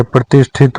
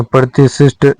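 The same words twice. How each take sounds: First: प्रतिष्ठित ending in thit; aspirated th before the final it of प्रतिष्ठित; correct form. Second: प्रतिशिष्ट with a doubled si sound; wrong form. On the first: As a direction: say pra-tish-thit for प्रतिष्ठित. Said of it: "होता है". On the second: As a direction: say prati-sisht for प्रतिशिष्ट. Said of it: "नहीं होता". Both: Shown as a demonstration.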